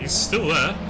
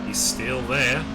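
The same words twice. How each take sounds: First: It is said in the speaker's normal accent. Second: It is said in a put-on Australian accent.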